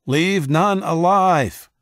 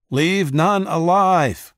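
First: High, loud, slow battle scream; slow vicious war cry; screamed order. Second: High, loud, slow battle cry; slow ruthless war cry; distant yell. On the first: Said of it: "he screamed". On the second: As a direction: bellow the order across the lines. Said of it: "yelled someone he couldn't see". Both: A narrator's reading.

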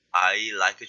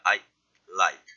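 First: Said in the usual way. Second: I cut off, short silence, then like; pause for D. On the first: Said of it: "I like 좋아하니까". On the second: Shown as a demonstration. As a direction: break between I and like where the D would be. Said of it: "조금 쉬어도 돼요".

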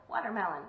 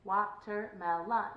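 First: Said in the usual way. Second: WA-TER-MEL-ON, slow and evenly spaced; slow monotone Watermelon, each syllable apart; robot-like syllables. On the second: Shown as a demonstration. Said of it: "I kinda sounded like a robot there".

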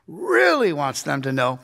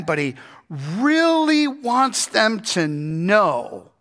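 First: Said in the usual way. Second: Really stretched out slow; stress on really. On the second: Shown as a demonstration. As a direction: lean on really, drawn out.

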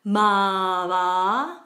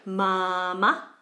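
First: "mava" with both vowels stretched; both syllables long. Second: "Mama" with long first syllable, short second; long then short. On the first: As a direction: draw out both halves of "mava". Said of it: "both syllables are long". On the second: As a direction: stretch the first "a" of "Mama", cut the last. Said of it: "second ma is very short". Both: Shown as a demonstration.

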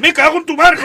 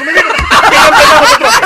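First: Much higher, louder curse through laughter; shouted curse. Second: Very high, very loud and slow, dissolving into laughter; drawn-out shrieking curse. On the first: Priest hearing the boy in the confessional, shouted curse. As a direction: explode in outrage. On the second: Priest repeating his curse at the boy, drawn-out shriek. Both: Acted.

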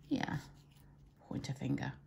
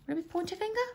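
First: Confirming. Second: High rising unsure question. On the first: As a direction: answer yourself, quietly sure. Confirms answer after asking. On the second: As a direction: ask it, genuinely unsure. Unsure which finger to name. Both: Real, not acted.

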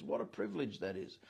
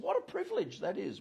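First: Soft low echo. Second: Said in the usual way. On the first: Shown as a demonstration. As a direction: repeat "What a privilege that is" much softer and lower.

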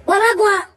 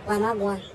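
First: Mama called higher and louder; raised calling voice on Mama go on. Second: Said in the usual way. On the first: Acted. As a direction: call Mama go on across the room. Same phrase said twice.

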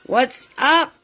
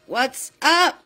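No difference in how they are said.

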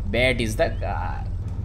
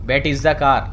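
First: "bet is the car" stretched out very slow; drawn out. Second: Said in the usual way. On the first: Shown as a demonstration. The gamer repeats his line very slowly to himself. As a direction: drag every word of "bet is the car".

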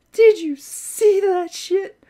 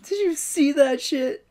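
First: Slower, higher, louder amazed repeat; high, slow astonished repeat; excited. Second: Said in the usual way. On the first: Real, not acted. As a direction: stretch it out in disbelief. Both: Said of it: "repeated more intensely".

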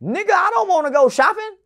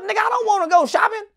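First: Indignant refusal. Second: Faster indignant refusal. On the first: Retold refusal to uncle. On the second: Repeated refusal. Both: Retold or imitated.

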